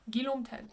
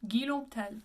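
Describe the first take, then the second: Both takes have the same delivery.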